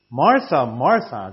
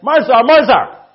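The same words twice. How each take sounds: First: It is said gently and affectionately. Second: It is said angrily, like shouting.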